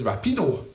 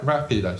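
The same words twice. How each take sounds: First: The stress is on the second syllable. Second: The stress is on the first syllable. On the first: The speaker calls it wrong. "A lot of emphasis on the pedo part" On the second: The speaker calls it right. "Rapido, simple"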